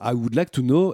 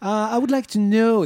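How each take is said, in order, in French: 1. C'est dit avec un fort accent français. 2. C'est dit avec un essai d'accent anglais. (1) "Et là, ça sort tout seul" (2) "dès que j'essaie d'avoir une espèce d'accent"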